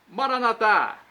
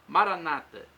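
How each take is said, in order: First: The stress is on the last syllable. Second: The stress is on the second-to-last syllable. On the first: This is how Catholics say it. "Pronúncia católica com a tônica na última sílaba" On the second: This is how Protestants say it. "colocam a tônica na penúltima sílaba"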